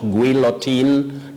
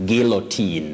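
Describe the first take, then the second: First: The first sound is g followed by w. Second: The first sound is a plain g. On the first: The speaker calls it wrong. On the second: The speaker calls it right.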